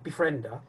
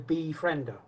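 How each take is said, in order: First: The 'be' is light and runs into the rest. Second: The 'be' is strong and set slightly apart. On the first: The speaker calls it wrong. "instead of saying befriender" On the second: The speaker calls it right. "try and accentuate the B. ... say befriender"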